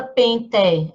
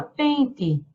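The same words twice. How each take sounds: First: Pente with a full open É at the end, pen-TÉ; spelling pronunciation. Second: Pente ending in an I sound, PEN-ti; final E of pente said as a light I; everyday pronunciation. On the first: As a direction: say pente as written, final E sounded as É. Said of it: "A gente não fala pente". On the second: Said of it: "a gente fala pente". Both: Shown as a demonstration.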